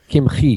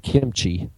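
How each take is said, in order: First: The middle consonant is a throaty, rasping 'ch' sound. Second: The middle consonant is a church-like 'ch' sound. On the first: It names the medieval rabbi. The speaker calls it right. "It's kimchi. ... It's got a chet in there" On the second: It names the Korean food. The speaker calls it wrong. "I'm glad he didn't say kimchi. My wife likes to eat kimchi"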